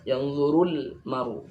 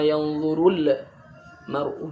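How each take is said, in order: First: The l sound is closed cleanly without vowel. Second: An extra echo vowel follows the l sound. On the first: The speaker calls it right. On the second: The speaker calls it wrong.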